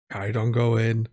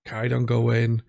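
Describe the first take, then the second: No difference in how they are said.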